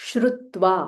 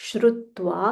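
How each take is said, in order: The two takes are said the same way.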